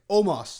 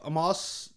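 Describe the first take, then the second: First: The name begins with an 'oh' vowel. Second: The name begins with an 'ah' vowel. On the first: The speaker calls it right. "I did write down the phonetic version Omos" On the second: The speaker calls it wrong. "no, sorry, Omos this week"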